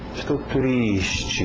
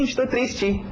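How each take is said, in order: First: It is said with a sad tone. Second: It is said without a sad tone. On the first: The speaker calls it right. "entonação e até expressões no seu rosto" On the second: The speaker calls it wrong. "Você não vai dizer"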